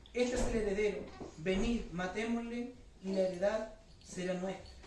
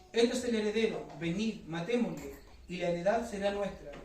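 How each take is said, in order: The two takes are said the same way.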